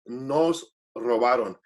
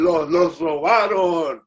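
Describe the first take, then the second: First: "nos robaron" said with an N at the start; slow, lower "nos robaron", starting on N; correct "nos". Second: "los robaron" said with an L instead of N; slow "los robaron", starting on L; mistaken "los". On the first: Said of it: "N O S". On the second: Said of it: "But I kept saying". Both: Shown as a demonstration.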